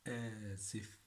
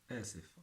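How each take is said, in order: First: آسف with a long first "aa", then "sif"; drawn-out teaching demo. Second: Said in the usual way. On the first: Shown as a demonstration. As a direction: stretch آسف out for learners to repeat. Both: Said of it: "Repeat it more and more".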